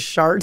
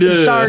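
First: The word ends with a t-like sound. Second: The word ends with a clearly stressed d sound. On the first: The speaker calls it wrong. "because I guess if not" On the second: The speaker calls it right. "Really emphasize that it's a D"

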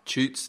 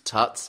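First: The vowel is a long 'oo' sound. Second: The vowel is a short 'uh' sound. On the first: The speaker calls it wrong. "I've been picked up in the past for saying Toots" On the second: The speaker calls it right. "I'm saying Tuts"

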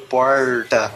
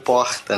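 First: The R is a retroflex R. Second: The R is a carioca non-retroflex R.

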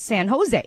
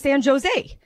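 First: The J is pronounced as an H sound. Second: The J is pronounced as a hard J sound. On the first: The speaker calls it right. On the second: The speaker calls it wrong.

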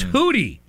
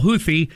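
First: The middle consonant is a plain 't' sound. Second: The middle consonant is a 'th' sound. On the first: The speaker calls it right. "You don't pronounce the TH. It's Hootie" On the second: The speaker calls it wrong. "The terrorist ones I call Houthi, even though that's not apparently the correct pronunciation"

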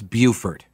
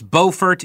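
First: It is said the South Carolina way. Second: It is said the North Carolina way. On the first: This is how the name is said in South Carolina. "In South Carolina, it's Beaufort" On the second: This is how the name is said in North Carolina. "In North Carolina, it's Beaufort"

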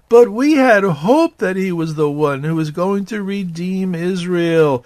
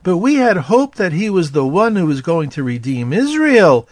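First: It is read in a gloomy, dejected tone. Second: It is read in a plain, neutral tone.

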